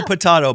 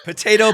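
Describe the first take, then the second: First: Potato said puh-TAH-toh; broad-A pronunciation. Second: Potato said puh-TAY-toh; long-A pronunciation. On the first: Host shrugging off the difference, potato as puh-TAH-toh. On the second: Host shrugging off the difference, potato as puh-TAY-toh. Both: Shown as a demonstration.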